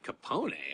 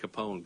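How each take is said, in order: First: The name has an Italian-style pronunciation. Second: The name has the usual English pronunciation. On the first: "true Italian, that would be how you pronounce that name" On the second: "Everyone else is like"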